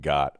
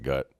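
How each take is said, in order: First: The vowel is an open 'o' as in 'got'. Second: The vowel sounds like the 'u' in 'gut'. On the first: "instead of saying like got" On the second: "I'll say like gut"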